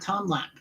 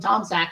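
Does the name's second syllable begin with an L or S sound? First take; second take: L sound; S sound. First: The second syllable begins with an L sound. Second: The second syllable begins with an S sound. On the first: The speaker calls it right. "and not Tom Lack" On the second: The speaker calls it wrong. "I call him Tom Sack"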